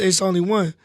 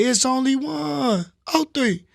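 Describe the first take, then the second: First: Said in the usual way. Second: High, drawn-out rap ad-lib; signature ad-lib. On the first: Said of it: "But I stopped saying it". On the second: Shown as a demonstration. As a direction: stretch it out high like a track tag. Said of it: "used to have an ad lib that say".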